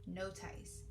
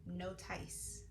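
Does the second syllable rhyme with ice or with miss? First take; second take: ice; ice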